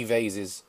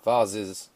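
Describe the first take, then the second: First: "vases" rhyming with "faces"; "vases" as VAY-siz, American style; American pronunciation. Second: "Vases" with a broad AH, as VAH-ziz; "Vases" with the vowel of "father"; British pronunciation. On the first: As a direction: say "vases" with a long A, as VAY-ziz. Says the word two ways. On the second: Corrects to the other pronunciation. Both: Shown as a demonstration.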